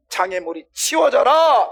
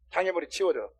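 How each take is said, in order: First: Loud, high, slow shouted order; stern command. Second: Said in the usual way. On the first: Acted. Preacher explains Jesus' order by shouting it, stern command. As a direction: order it cleared away, drawing the words out. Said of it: "얘를 꾸짖는 거야".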